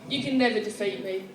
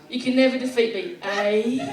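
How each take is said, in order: First: It is said in the speaker's usual accent. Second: It is said in a Canadian accent.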